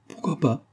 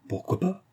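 First: High-pitched retort, falling at the end; energetic challenge. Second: Very high, soft, rising repeat; questioning challenge. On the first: Marianne opens hostilities with Vera, energetic challenge. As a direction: toss it back with spirit. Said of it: "prononça avec énergie ce mot". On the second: Marianne repeats her challenge to Vera, questioning challenge. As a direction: lift it into a light, defiant question. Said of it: "reprit-elle". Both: A narrator's reading.

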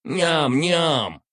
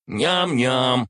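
First: Tiny greedy creature voice; squeaky smirking spider. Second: Higher, louder gleeful nyam-nyam; smirking creature voice; smirking spider. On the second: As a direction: smirk through a greedy munching sound. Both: Acted. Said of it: "заявил штопор, ухмыляясь".

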